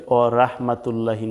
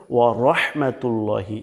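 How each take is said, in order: First: Short "ওয়া রাহমাতুল্লাহি" with open "ra" and "lla"; wrong light rah. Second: "ওয়া রহমাতুল্লাহি" as wa-rohmatul-lohi; correct heavy ro. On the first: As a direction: say "ওয়া রাহমাতুল্লাহি" unstretched, thin r. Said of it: "না হয়ে যায়". (পাতলা রা দিয়ে ভুল উচ্চারণ) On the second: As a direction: round the "ro" and "llo" heavily. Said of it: "বলতে হবে". (ভারী র দিয়ে শুদ্ধ উচ্চারণ) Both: Shown as a demonstration.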